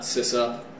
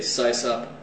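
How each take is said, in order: First: The first syllable sounds like 'sissy'. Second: The first syllable does not sound like 'sissy'. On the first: The speaker calls it wrong. "Sysop sounded too much like sissy" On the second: The speaker calls it right. "I say Sysop"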